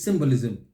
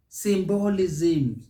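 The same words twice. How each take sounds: First: "symbolism" as SIM-bolizm; light end on "symbolism"; correct stress. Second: "Symbolism" as sim-BO-li-ZIM, slow; wrong sing-song ending. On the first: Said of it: "it is symbolism". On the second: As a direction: drag out "Symbolism"'s later syllables. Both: Shown as a demonstration.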